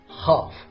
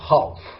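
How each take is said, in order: First: The word has no L sound. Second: The word has an L sound. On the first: The speaker calls it right. "the pronunciation must be half" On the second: The speaker calls it wrong. "not half"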